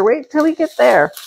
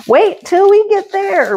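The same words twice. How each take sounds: First: Said in the usual way. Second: High, teasing sing-song; high sing-song teasing promise; 1 sing-song tease. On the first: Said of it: "higher take before". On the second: Pretend. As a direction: tease the viewers in a high playful lilt. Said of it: "repeats it plainly after".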